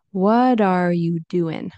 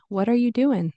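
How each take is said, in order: First: "what are" linked as "whadar", ending "doin'"; connected speech, slowed. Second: "What are you doing" quickly linked, ending "doin'"; connected speech. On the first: Teacher modelling connected speech slowly, IN ending. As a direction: slowly link the words of "what are you doing". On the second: Teacher modelling natural connected speech, IN ending. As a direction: run "What are you" together, higher. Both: Shown as a demonstration. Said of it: "Or connected speech".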